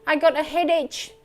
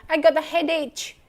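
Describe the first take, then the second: Both takes have the same delivery.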